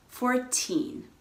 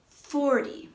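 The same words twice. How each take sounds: First: Put-on "fourteen" with a long, stressed "teen". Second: "forty" high on "for", falling to weak "ty"; stress on FOR. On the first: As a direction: lean on the second syllable of "fourteen". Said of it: "the stress is on the teen". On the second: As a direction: punch the first syllable of "forty". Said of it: "stress is on the first syllable". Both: Shown as a demonstration.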